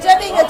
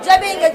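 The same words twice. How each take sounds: The two takes are said the same way.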